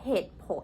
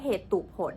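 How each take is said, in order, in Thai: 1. คำนี้ออกเสียงสองพยางค์ค่ะ 2. คำนี้ออกเสียงสามพยางค์ค่ะ (1) "เราออกว่าเหตุผล" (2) "เราไม่ได้อ่านออกมาว่าเหตุตุผล"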